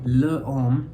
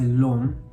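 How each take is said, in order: First: The article is said as a separate full syllable. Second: The article is run straight into the noun. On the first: The speaker calls it wrong. "instead of saying le homme" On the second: The speaker calls it right. "we say l'homme"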